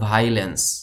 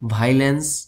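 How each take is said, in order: First: The word begins with a single 'vai' sound. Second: The word begins with a single 'vai' sound.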